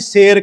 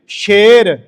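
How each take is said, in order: First: The word begins with a plain 's' sound. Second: The word begins with an 'sh' sound. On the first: It names a unit of weight. The speaker calls it wrong. "ਜੇ ਉਚਾਰਨ ਉਹਦਾ ਅਸੀਂ ਸ਼ੇਰ ਕਰਤਾ, ਤੇ ਸ਼ੇਰ ਹੁੰਦਾ ਜਿਹੜੇ ਆਪਾਂ ਕਹਿੰਦੇ ਆ ਵੀ ਇੰਨੇ ਸ਼ੇਰ ਚੀਜ਼ ਹੋ ਗਈ" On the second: It means bold like a lion. The speaker calls it right. "ਸਾਨੂੰ ਉਚਾਰਨ ਕਰਨ ਲਈ ਲਾਉਣੀ ਪੈ ਗਈ"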